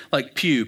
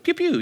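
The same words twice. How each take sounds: First: Said in the usual way. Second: High-pitched playful "pew, pew"; little sci-fi zap noises; laser gun noise. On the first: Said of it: "P E W". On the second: Shown as a demonstration. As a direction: imitate a toy laser with quick high pews. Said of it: "look, a little laser gun".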